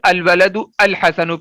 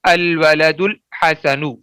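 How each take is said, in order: First: The second al is said separately with its vowel. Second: The words link, dropping the second al's vowel. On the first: The speaker calls it wrong. "ये गलत हो जाएगा" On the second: The speaker calls it right. "हमजा वसली अपनी हरकत गिरा देता है"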